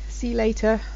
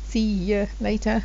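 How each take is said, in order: First: The word 'you' is merged and nearly lost. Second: The word 'you' is clearly pronounced in full. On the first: "we merge this a bit" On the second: "It is you"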